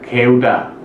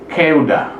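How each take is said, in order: First: The first consonant is soft, between g and k. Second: The first consonant is hard and tense. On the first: The speaker calls it wrong. "Kalau pakai satu giat aja itu bacanya setengah g setengah k" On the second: The speaker calls it right. "Tapi ini pakai sangkiat lebih keras"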